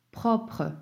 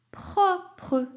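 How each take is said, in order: First: Said in the usual way. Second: Propre drawn out as two syllables, pro-pre, starting high. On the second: Shown as a demonstration. Teacher dictating the last word, propre split high and slow into pro-pre. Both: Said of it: "Deux syllabes".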